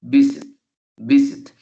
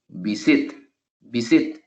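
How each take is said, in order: First: "visit" loud on VI, with "sit" falling away; VI-sit, emphatic teaching demo; first-syllable stress. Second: "visit" wrongly stressed on SIT; vi-SIT, showing the misplaced accent; last-syllable stress. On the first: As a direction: punch the start of "visit" and let "sit" drop. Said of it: "el sit recae". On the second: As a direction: move the weight to the end of "visit". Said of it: "coloco el acento en la última sílaba". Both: Shown as a demonstration.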